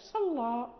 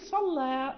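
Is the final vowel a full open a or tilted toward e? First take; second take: open a; toward e. First: Heavy l, and the final vowel is open a. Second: Light l, and the final vowel leans toward e. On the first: "إذا قرأنا بالفتح" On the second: "إذا قرأنا بالتقليل"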